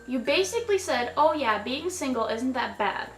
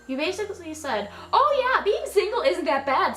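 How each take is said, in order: First: It is said at normal volume. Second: It is said loudly, like shouting in caps.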